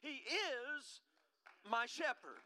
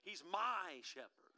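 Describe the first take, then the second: First: The stress is on the word is. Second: The stress is on the word my.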